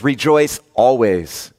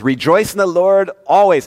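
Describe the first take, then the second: First: "Rejoice always" slowed right down, each word weighted; slow emphatic. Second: Higher, ringing proclamation; Paul quoted. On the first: Pastor repeating Paul's command, slow and deliberate. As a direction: lean on "Rejoice" and let "always" land slowly. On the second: Pastor voicing Paul to the congregation, higher and ringing. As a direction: lift "always" up high and hold it. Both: Acted. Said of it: "Paul says".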